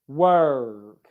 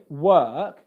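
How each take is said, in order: First: The R sound is pronounced after the vowel. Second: The R sound is silent after the vowel. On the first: The speaker calls it wrong. "they make an English R where there is no R in B B C English" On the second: The speaker calls it right. "So we're saying work"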